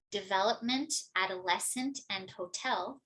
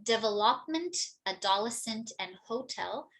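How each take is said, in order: First: De-VEL-opment, ad-o-LES-cent, ho-TEL; correct word stress. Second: DEVELOPMENT, ADOLESCENT and HOTEL with the stress on the wrong syllables; misstressed words. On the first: Teacher giving the corrected words, stressed de-VEL-opment, ad-o-LES-cent, ho-TEL. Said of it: "which should be". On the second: Teacher showing common learner errors, misstressed "Development, adolescent, and hotel". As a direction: put the stress wrongly: de-ve-LOP-ment, a-DOL-escent, HO-tel. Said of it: "misstressed words". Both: Shown as a demonstration.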